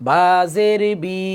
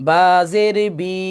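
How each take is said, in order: The two takes are said the same way.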